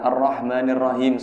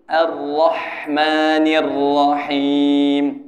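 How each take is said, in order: First: The h is a plain, light English-like h. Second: The h is a soft, breathy throat sound. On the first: The speaker calls it wrong. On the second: The speaker calls it right. "Harus lembut"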